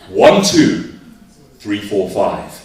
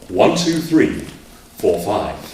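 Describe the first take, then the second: First: It is said in an angry way. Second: It is said in a dramatic, theatrical way.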